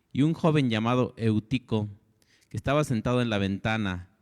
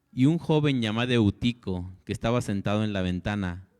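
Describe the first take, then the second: Both takes have the same delivery.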